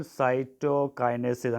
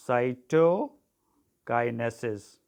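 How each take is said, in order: First: Said in the usual way. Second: CYTOKINESIS drawn out very slowly, in separate parts; "cytokinesis" spaced out for note-takers; slow dictation. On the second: Shown as a demonstration. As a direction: dictate "cytokinesis" slowly, pausing after "cyto". Dictates the word to be underlined.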